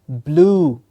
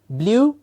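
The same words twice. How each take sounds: First: The vowel is a long oo sound. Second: The vowel sound is short and clipped. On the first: The speaker calls it right. "it is a long oo sound" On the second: The speaker calls it wrong. "many times heard as blue"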